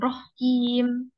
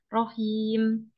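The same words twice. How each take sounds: First: The word is said with a doubled consonant. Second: The word is said with no doubled consonant. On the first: The speaker calls it wrong. "bukan rohim" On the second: The speaker calls it right. "rohim yang belakang tanpa tasdid ya. Rohim"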